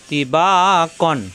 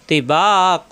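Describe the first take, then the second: First: The word ends with an n sound. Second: The word ends with a stretched long vowel. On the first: The reading continues without stopping. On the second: The reading stops on this word.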